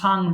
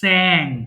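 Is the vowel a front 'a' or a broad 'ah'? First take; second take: broad ah; front a. First: The vowel is a broad ah sound. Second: The vowel is a front a, like in cat. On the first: The speaker calls it wrong. "এটা কিন্তু সিং সাং সাং নয়, অনেকে ভুল করে" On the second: The speaker calls it right. "It has also এ sound"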